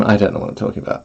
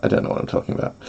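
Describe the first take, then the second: First: Said in the usual way. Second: Soft whisper of the same words. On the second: Shown as a demonstration. Streamer repeats herself as a whisper. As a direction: breathe it out unvoiced. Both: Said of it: "repeated whispered".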